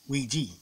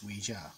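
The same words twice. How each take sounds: First: It uses the common English pronunciation. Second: It uses a different, less common pronunciation. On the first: This is how most English speakers say it. The speaker calls it wrong. "ninety-nine percent of the English speaking world ... pronounces it Ouija" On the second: This is the original pronunciation. The speaker calls it right. "The actual pronunciation is Ouija"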